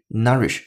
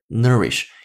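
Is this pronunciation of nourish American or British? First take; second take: British; American. First: The word is said with a British vowel. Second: The word is said with an American vowel. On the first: "倾向于英音的发音方式，所以这个单词你听的声音更倾向于nourish 这样的声音" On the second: "而美音的是nourish"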